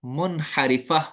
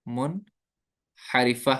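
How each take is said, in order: First: Said in the usual way. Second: मुनहरिफा drawn out very slowly, syllable by syllable; slow spelling-out. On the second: Shown as a demonstration. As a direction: stretch मुनहरिफा for the students to repeat. (मुनहरिफा, बहुत धीरे, अक्षर-अक्षर) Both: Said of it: "इनको बोलते हैं हरूफ".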